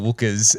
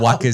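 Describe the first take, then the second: First: The first vowel sounds like the one in 'book'. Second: The first vowel sounds like the one in 'cup'. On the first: The speaker calls it wrong. "instead of wookers" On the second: The speaker calls it right. "it said no wuckers"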